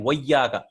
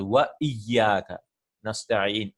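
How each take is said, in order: First: Wa iyyaka slurred into one word with the glottal stop dropped; wa iyyaka blended smoothly with no catch; run-together wa iyyaka. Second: Wa iyyaka slow, with a clear glottal stop before iyyaka; slow recitation with a distinct stop between wa and iyyaka; careful recitation. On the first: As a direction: glide from wa into iyyaka without a break. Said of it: "I'm stopping to pronounce this". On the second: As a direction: pause on wa, then hit iyyaka fresh and slowly. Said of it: "I am stopping to pronounce it". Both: Shown as a demonstration.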